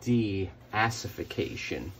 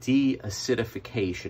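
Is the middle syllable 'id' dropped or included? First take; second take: dropped; included. First: The word is said without the 'id' syllable. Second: The word is said with the 'id' syllable. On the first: The speaker calls it wrong. "I used to say deacification" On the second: The speaker calls it right. "that's the way to say it"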